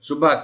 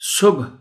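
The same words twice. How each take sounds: First: A vowel follows the second consonant. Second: No vowel follows the second consonant. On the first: The speaker calls it wrong. "दूसरे हर्फ पर हम ज़बर इस्तेमाल कर जाते हैं" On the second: The speaker calls it right. "दूसरे हर्फ को ड्रॉप करना है क्योंकि उस पर जज़्म है"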